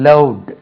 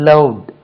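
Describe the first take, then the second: The two takes are said the same way.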